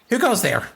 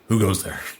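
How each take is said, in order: First: It is said in a high voice. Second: It is said in a low voice.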